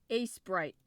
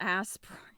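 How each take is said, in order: First: The first syllable sounds like 'ace'. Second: The first syllable sounds like 'ass'. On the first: The speaker calls it right. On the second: The speaker calls it wrong. "not Asprite. ... that's not how you say it. There is no in, like booty word in there"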